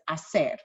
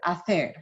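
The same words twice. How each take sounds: First: The middle consonant sounds like s. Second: The middle consonant sounds like th. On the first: This is how other teachers say it. "with the S sound" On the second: This is the speaker's own way of saying it. "I pronounce as the"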